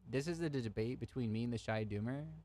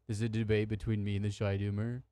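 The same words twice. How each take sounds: First: It is said in the speaker's ordinary voice. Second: It is said in a put-on imitated voice.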